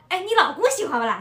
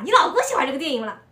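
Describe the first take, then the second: First: Asked in lively Shanghainese dialect; the friend's Shanghainese question, voiced a bit higher and louder. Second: Quick Shanghainese follow-up question. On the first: A friend asks about the husband, in Shanghainese. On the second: Retold or imitated. The friend presses about the husband, quick Shanghainese. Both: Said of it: "然后我闺蜜说".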